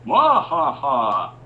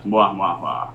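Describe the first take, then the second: First: High, loud villain cackle; evil laugh. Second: Half-hearted evil laugh. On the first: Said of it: "he does an evil laugh". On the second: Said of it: "I'm supposed to do an evil laugh". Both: Retold or imitated.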